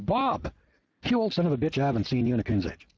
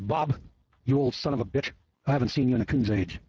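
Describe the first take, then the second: First: It is said in a warm, friendly tone. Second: It is said in a harsh, hostile tone. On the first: It is an affectionate greeting. "he'll probably buy you a beer and have a good laugh with you" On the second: It is an insult.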